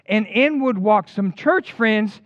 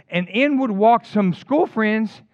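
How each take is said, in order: First: "church" stretched and leaned on, slow; slow it down and hit "church"; stress on church. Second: "school" stretched and leaned on, slow; slow it down and hit "school"; stress on school. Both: Acted.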